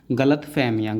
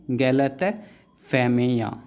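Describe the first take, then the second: First: Said in the usual way. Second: Slow spelled-out word. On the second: Shown as a demonstration. Teacher dictating गलतफहमियाँ slowly to students. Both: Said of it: "गलत क्या outline".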